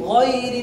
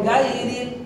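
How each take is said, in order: First: The first vowel sounds like a rounded 'o'. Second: The first vowel sounds like a broad 'a'. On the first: The speaker calls it right. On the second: The speaker calls it wrong.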